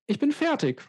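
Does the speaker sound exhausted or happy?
happy. It is said in a happy, pleased tone. The speaker is glad to have finished. "or whether I'm happy about the thing that I just finished"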